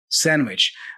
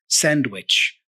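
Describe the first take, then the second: First: The D sound in the middle is left out. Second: The D sound in the middle is clearly pronounced. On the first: The speaker is talking in a loose, relaxed way. "we drop the D and we just say sandwich" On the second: The speaker is talking in a careful, clear way. "he pronounced the D very clearly there"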